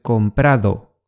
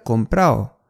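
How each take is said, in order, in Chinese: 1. 元音之间的 d 要发音。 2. 元音之间的 d 省略。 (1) "准确的是comprado" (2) "这个comprado 其实是口语"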